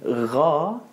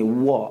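First: The r sounds like an English r. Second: The r sounds like a w. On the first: "Ada yang menyebut ra dengan bunyi begini, ra, seperti rain" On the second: "Ada yang menyebut huruf ra seperti bunyi V ataupun W"

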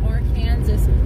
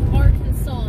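First: The word ends like the word 'Kansas'. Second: The word ends with a 'saw' sound. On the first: The speaker calls it wrong. "not Arkansas, but it's spelled like Kansas" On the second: The speaker calls it right. "it's Arkansas"

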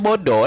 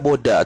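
First: The final vowel is a rounded oh sound. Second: The final vowel is an open ah sound. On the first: The speaker calls it right. "Dia baca bodoh lah" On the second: The speaker calls it wrong. "Orang baca boda tak betul tu"

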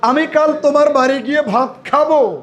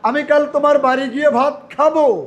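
First: The word খাবো is stressed. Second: The same.

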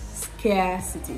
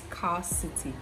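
First: The stressed vowel is the 'air' diphthong. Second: The stressed vowel is a long 'ar' sound. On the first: The speaker calls it right. "the next vowel sound is the diphthong air" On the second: The speaker calls it wrong. "I know a lot of people will say it's scarcity. It's not the long R sound"

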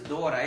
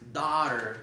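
First: It is said like the Spanish name Dora. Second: It is said like the English word daughter. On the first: The speaker calls it wrong. "no es Dora" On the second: The speaker calls it right. "es daughter"

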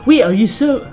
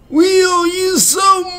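First: It is said in the speaker's own normal voice. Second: It is said in a put-on old man voice.

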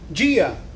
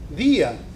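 First: The d sounds like English j, affricated. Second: The same.

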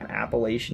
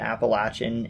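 First: It uses the northern, Pennsylvania-style pronunciation. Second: It uses the southern, Tennessee-style pronunciation. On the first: "I'm originally from Pennsylvania, so I've always called the mountains in the region I'm from Appalachian" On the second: "I'll be pronouncing it Appalachian and Appalachia because that's what people in Tennessee normally would say"

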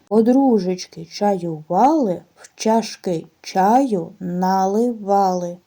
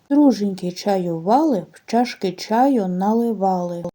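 First: It is said at a slower, normal pace. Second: It is said at a faster pace.

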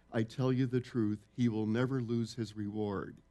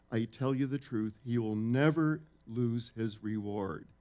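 The two takes are said the same way.

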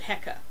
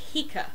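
First: The first vowel sounds like 'eh'. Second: The first vowel sounds like 'ee'. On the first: This is the usual modern pronunciation. "generally people pronounce it Heka" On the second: This follows the later Coptic form of the word. "the Coptic word is spelled more like H-I-K-E ... it may have been pronounced more like Heka"

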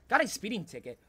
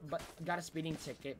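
First: It is said in a Sonic impression. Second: It is said in his normal voice.

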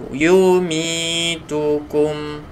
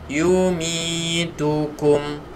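Both takes have the same delivery.

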